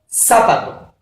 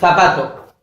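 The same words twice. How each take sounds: First: It is said with an Argentine accent. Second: It is said with a Spanish accent. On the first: "Acá decimos" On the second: "en España se dice"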